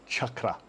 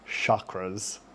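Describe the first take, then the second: First: The word begins with a ch sound. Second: The word begins with an sh sound. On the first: The speaker calls it right. "it's a ch sound, uh, as in cheese" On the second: The speaker calls it wrong. "a modern mispronunciation"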